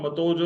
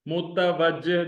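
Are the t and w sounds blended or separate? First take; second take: blended; separate. First: The t and w blend into one 'to' sound. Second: The t and w are pronounced as separate sounds. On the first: The speaker calls it wrong. "मतोजो आप नहीं पढ़ते" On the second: The speaker calls it right. "ते और वाव अलग अलग आप pronounce करते हैं"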